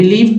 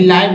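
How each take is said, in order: First: The vowel sounds like 'ih'. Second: The vowel sounds like 'eye'. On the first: The speaker calls it right. "यहाँ पर लिव उच्चारण हुआ है।" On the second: The speaker calls it wrong. "कुछ लोग लाइव बोलते हैं"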